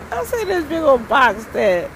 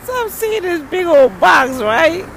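First: Said in the usual way. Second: Excited reveal. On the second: Retold or imitated.

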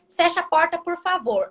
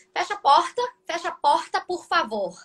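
First: Said in the usual way. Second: Another Brazilian accent. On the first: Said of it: "Eu falo assim". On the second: Shown as a demonstration. Teacher contrasting Brazilian accents for a friend, another regional Brazilian accent. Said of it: "Outro sotaque, eles falam".

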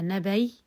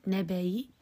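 First: نبي closed on a y glide, no vowel after; pure sukun. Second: نبي with a faint short i after the y; rawm. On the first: Teacher shows pausing by spelling, pure sukun on ya. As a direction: say نبي as "nabay", hamza turned into ya. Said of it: "وقفا بالسكون المحض". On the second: Teacher quizzes students on the form, rawm ending. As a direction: say نبي as "nabayi", a trace of kasra. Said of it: "برومها". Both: Shown as a demonstration.

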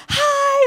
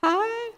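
First: Much higher, louder bright greeting; mock cheerful hello; cheery hi. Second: Mock confused hi; puzzled reply. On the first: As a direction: wave at a stranger brightly. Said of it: "drive past people and go". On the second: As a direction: answer a stranger warily. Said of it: "and they're like".

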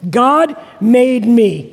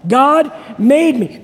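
First: Slow, spoken with the congregation; slow call for the crowd to repeat; call and response. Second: Slow, loud call to repeat; slow rallying shout from the pulpit; louder repeat. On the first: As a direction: lead the room in saying it. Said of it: "Let's say it together". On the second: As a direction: say it louder with the crowd. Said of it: "One more time". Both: Shown as a demonstration.

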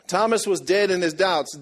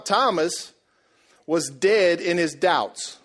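First: Said in the usual way. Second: Slow emphatic. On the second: Shown as a demonstration.

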